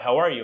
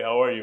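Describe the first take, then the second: First: It is spoken in an ordinary, higher speaking voice. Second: It is spoken in a deep, bass speaking voice. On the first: "we're constantly speaking like this" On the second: "If you're a bass"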